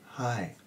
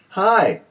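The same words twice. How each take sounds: First: It is said softly and quietly. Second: It is said loudly. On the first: "Now say it softly. That means quietly" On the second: "Let's do it loud"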